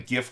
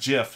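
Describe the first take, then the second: First: It begins with a hard G sound. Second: It begins with a soft J-like sound. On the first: "the hard G" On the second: "not GIF like the peanut butter"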